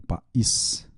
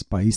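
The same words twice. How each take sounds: First: "país" softly split into pa and ís; syllables separated. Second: Said in the usual way. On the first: Shown as a demonstration. Teacher checking hiatus or diphthong, "país" divided in two. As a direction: say "país" in two soft beats, pa, ís. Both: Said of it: "tem hiato, não ditongo".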